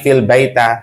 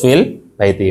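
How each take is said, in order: First: The last word ends with an a vowel. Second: The last word ends with an i vowel. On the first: The speaker calls it wrong. "apalagi fil baita, tidak boleh" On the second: The speaker calls it right. "Harus fil baiti"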